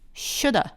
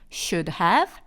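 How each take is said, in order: First: It is faster and ends in a plain 'uh' vowel. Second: It ends with a light 'of'-like 'v' sound. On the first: "더 빨리 발음하게 되면 shoulda, a를 갖다 끝에 붙인 게 되죠" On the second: "of를 should 뒤에다가 살짝 붙여주시면 됩니다"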